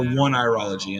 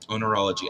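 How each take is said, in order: First: The word begins with the word 'one'. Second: The word begins with an 'oh' sound. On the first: The speaker calls it wrong. "I don't think that's it" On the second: The speaker calls it right. "I think that's the right way to say it"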